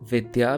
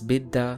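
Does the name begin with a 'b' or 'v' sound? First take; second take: v; b. First: The name begins with 'v' and has 'dy'. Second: The name begins with 'b' and has 'dd'. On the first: This is the Sanskrit form. "the Sanskrit sound" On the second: This is the Bengali form. "so it twists the pronunciation to simplify it"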